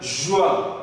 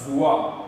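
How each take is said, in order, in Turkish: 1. Kelime 'zh' sesiyle başlar. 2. Kelime 'z' sesiyle başlar. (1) "Dersim ağzında J harfi olarak kullanıldığı için" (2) "bizim mesela Merkez Zazacası'nda zua"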